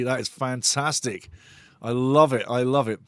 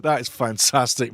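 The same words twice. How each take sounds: First: Sarcastic. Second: Said in the usual way. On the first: Acted. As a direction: drag it out like you mean the opposite. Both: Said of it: "You can't have enough sarcasm ever".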